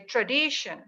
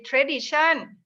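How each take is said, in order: First: It is said with an American-style pronunciation. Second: It is said with a Thai-style pronunciation. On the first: "whereas American would say tradition" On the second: "why Thai people say tradition"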